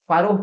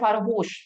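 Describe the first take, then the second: First: The word ends with a plain 'o' vowel. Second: The word ends with an 'sh' sound. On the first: The speaker calls it right. "फारो पढ़ा जाता है इसे" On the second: The speaker calls it wrong. "अब बोलोगे भैया लिखा गया है फारोश, नहीं"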